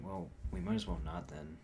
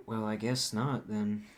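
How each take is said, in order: First: A flat final refusal; firm no, the version he did not actually use; definitive. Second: Unsure no, the way he actually said it; tentative. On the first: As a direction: shut the door on it. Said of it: "I didn't say it as definitive as that". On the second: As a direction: trail into a reluctant maybe-no. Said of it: "I said no, but I didn't say no". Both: Shown as a demonstration.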